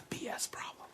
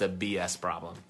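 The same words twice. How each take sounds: First: The phrase is whispered. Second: The phrase is spoken aloud.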